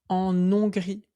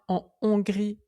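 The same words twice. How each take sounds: First: The n is linked to the next word. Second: The n is not linked to the next word. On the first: The speaker calls it wrong. "et pas en Hongrie" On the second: The speaker calls it right. "je dis bien en Hongrie"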